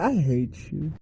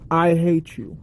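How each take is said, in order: First: It is said in a teasing, joking way. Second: It is said in a plain, serious way. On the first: It is unclear whether the speaker means it. "are you saying that jokingly" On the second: The speaker truly wants to be left alone. "that's pretty damn direct"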